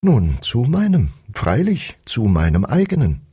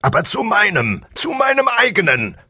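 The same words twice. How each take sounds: First: Mild, calm echo; gentle shepherd. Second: Very high strained king voice; roaring tyrant king. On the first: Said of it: "sagte der Schäfer wieder". (sanfter Schäfer, der ruhig antwortet) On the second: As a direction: shriek it in royal rage. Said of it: "brüllte der König". (brüllender tyrannischer König) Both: A narrator's reading.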